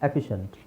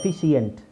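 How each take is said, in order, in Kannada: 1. ಅಂತ್ಯದಲ್ಲಿ ಒಂದೇ ಉಚ್ಚಾರಾಂಶ ಇದೆ, 'shunt'. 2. ಅಂತ್ಯದಲ್ಲಿ ಎರಡು ಉಚ್ಚಾರಾಂಶ ಇದೆ, 'shee-ent'. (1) "ಶಂಟ್" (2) "wrong"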